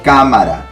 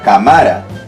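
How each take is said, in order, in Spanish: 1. La fuerza está en la primera sílaba. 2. La fuerza está en la segunda sílaba. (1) "Pero te han dicho cámara. La fuerza está acá" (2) "Si yo lo dejo así, sin tildar, diría que la fuerza de voz está acá. Porque yo diría cámara"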